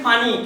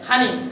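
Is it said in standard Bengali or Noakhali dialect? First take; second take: standard; Noakhali. First: It is said in standard Bengali. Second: It is said in Noakhali dialect.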